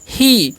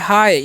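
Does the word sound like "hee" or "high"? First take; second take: hee; high. First: The vowel sounds like "ee" in "see". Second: The vowel sounds like "eye". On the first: The speaker calls it wrong. "बहुत सारे students क्या गलती करते हैं, इसे पढ़ते हैं ही" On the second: The speaker calls it right. "इसे आप लोग पढ़ना है हाय"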